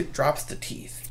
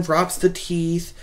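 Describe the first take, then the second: First: Breathy whispered aside. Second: Said in the usual way. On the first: Retold or imitated. Retelling a horror scene, whispered aside. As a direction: drop to an unvoiced whisper.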